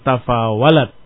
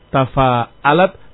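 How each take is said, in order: First: The middle consonant is a w sound. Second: The middle consonant is a glottal stop. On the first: "Inqalab al-hamzah ila al-waw" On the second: "Perhatikan hurufnya"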